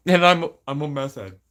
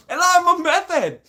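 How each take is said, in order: First: Said in the usual way. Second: Very high, loud mock-crazed squeal; mock manic addict. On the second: Mocking the accusation of being an addict, manic squeal. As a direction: squeal it like a hammed-up maniac. Mock meth head outburst.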